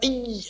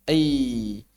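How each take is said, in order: First: The glide is tight, with the tongue pressed close. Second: The glide is loose, with the tongue floating. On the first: The speaker calls it wrong. "kalau nempel ei, ei, malah nggak jadi lin" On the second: The speaker calls it right. "agak ngambang"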